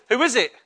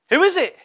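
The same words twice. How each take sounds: First: Said in the usual way. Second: Raised, higher call into the unknown; higher questioning call. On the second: Acted. Samuel answers a voice he doesn't know, higher questioning call. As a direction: pitch it up, calling out to an unseen voice.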